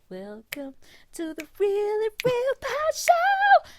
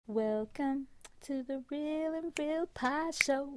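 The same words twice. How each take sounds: First: It is said loudly and energetically. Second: It is said quietly and low.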